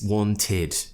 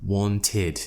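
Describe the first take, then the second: Both takes have the same delivery.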